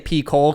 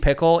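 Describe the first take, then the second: First: It begins with a long 'pee' sound. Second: It begins with a short 'pick' sound. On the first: "I always say P-Cole because that's just kind of how it reads" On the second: "Is it supposed to be pickle?"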